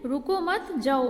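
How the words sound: There is a pause after the second word. Don't stay; you may go. "मत के बाद ये अल्पविराम लगा हुआ है"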